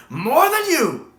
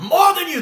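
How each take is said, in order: First: Slow, high, loud and drawn out; savored retort. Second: High loud snapped retort; defiant retort. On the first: Fan relishing McGann's line, drawn out slow, high and loud. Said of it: "hear McGann say". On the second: Fan repeating McGann's line as a quick high loud retort. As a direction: snap it back, high and loud. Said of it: "that's my favorite line I ever heard". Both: Retold or imitated.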